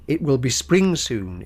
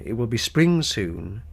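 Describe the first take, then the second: First: "It will be spring soon" with a falling close; first spring call. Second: "it will be spring soon" slower and quieter, rising on "soon"; hopeful rising repeat, slower; softer slow echo. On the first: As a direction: say it once, settling down on "soon". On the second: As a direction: echo the line like a bird repeating itself. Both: Shown as a demonstration. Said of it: "attempt to mimic the repetitions of birdsong".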